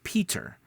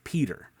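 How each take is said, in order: First: The middle consonant is a clear T. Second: The middle consonant sounds like a soft D. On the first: "instead of" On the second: "we usually say with a D"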